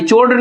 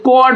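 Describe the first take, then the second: First: The word begins with a ch sound. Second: The word begins with a k sound. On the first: The speaker calls it wrong. "चोड नहीं" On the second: The speaker calls it right. "ये कॉड होता है"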